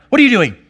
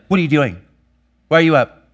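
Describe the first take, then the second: First: Sharp, much higher and louder question; father startling his toddler with a loud, high snap; startled snap. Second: Annoyed, clipped questions rising louder; father snapping at his daughter for getting up early; irritated snap. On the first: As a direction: bark it out so the child jumps. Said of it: "startled her". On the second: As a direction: snap at the child for interrupting. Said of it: "I'd be like". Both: Retold or imitated.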